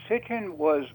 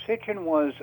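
The two takes are said the same way.

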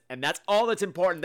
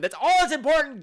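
First: Said in the usual way. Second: Much higher and louder, stressing all; loud emphatic repeat. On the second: Shown as a demonstration. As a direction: shout the line as a big declaration. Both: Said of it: "repeated with emphasis".

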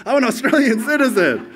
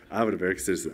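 First: High and loud with a laugh, gushing; mock proud citizen. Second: Said in the usual way. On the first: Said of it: "Did you wake up yesterday".

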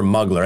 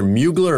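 First: MUGLER said with a short "muh" first syllable; preferred pronunciation. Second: MUGLER said with a "myoo" first syllable; alternative pronunciation. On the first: Host settles on a designer's name, MUGLER as MUH-gler. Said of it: "I think it's Mugler". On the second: Host unsure of a designer's name, MUGLER as MYOO-gler. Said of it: "I believe it's pronounced Mugler". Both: Shown as a demonstration.

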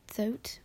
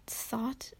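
First: "thought" said as "thote"; puzzled test of "thought" as "thote"; mispronounced thought. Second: Said in the usual way. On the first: Shown as a demonstration. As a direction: say "thought" with a long o, rhyming with "boat". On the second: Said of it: "what, thought".

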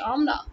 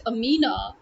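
First: "Amna" as AHM-na, two syllables; correct Amna. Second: "Amina" with long ee, a-MEE-na; three syllables in "Amina", stretched middle; name they can say. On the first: Challenging people who mispronounce names, AHM-na. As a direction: open ah at the start of "Amna". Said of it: "why can't you say Amna". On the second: Challenging people who mispronounce names, a-MEE-na. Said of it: "if you can say". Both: Shown as a demonstration.

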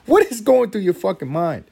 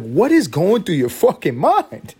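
First: High, loud repeated outburst; louder exasperated yell. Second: Loud, slow, high exasperation; exasperated yell. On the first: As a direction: push the disbelief further. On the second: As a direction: yell in disbelief at the toddler. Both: Retold or imitated. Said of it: "I'm like".

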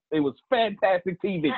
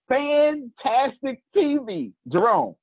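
First: Said in the usual way. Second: Fantastic T V stretched slow and high, each word leaned on; drawn-out emphasis. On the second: Real, not acted. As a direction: savor fantastic T V slowly, proud. Boasting about the great podcast.

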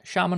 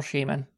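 First: Shaman said as SHAH-mun; SHAH-man pronunciation. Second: Shaman said as SHAY-mun; long "ay" in the first syllable of Shaman; SHAY-man pronunciation. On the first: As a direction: open "ah" in the first syllable of Shaman. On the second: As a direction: say Shaman to start like "shame". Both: Shown as a demonstration. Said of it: "is it Shaman or Shaman".

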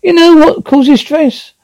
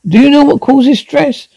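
First: Rising pitched rant; much higher angry question. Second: Pressing high question; high angry repeat. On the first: Wife confronts husband about the gun, high and angry. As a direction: pitch it up with rage. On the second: Wife presses husband again, high and angry. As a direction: pitch it high, insistent. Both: Acted.

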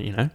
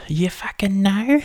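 First: Said in the usual way. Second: Much higher, slow, drawn-out squeal; high mock squeal. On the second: Real, not acted. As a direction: pitch it way up and stretch it.

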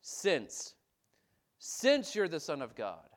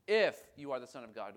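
First: "Since" stressed firmly and loud; confident since. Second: "if" stressed as a doubtful condition; doubting if. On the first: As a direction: land on "Since" with full conviction. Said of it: "What do we say?". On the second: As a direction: lean on "if" as if you doubt it. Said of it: "Not if". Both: Shown as a demonstration.

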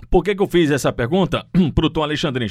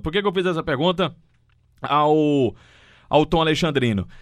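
First: Choking mid-sentence, clearing throat; words catch in a choked throat. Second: Said in the usual way. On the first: Real, not acted. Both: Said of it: "me engasguei aqui".

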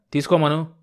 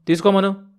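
First: Bellowing. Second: High, loud angry bellow; furious old man bellowing తీసుకోమను. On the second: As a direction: roar తీసుకోమను at him, pitched up. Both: A narrator's reading. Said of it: "రంకలు వేశాడు".

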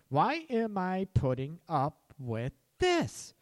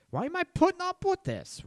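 First: Slow, drawn-out fed-up question; slowly spelled-out exasperation; emphatic exasperation. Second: High-pitched, incredulous demand; exasperated outburst. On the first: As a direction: stretch each word out, leaning on THIS. Same question repeated for emphasis. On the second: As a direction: blurt it out high, fed up. Imagined self fed up, confronting. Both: Acted.

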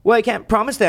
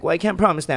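First: High, louder mock whine on "Well, I can't promise that"; the high take of "Well, I can't promise that"; mocking partner's refusal. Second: "Well, I can't promise that" in a milder, only slightly raised imitation; the toned-down take of "Well, I can't promise that"; milder mock refusal. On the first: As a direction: imitate her whiny refusal. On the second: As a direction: repeat her refusal lightly mimicked. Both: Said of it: "And she's like".

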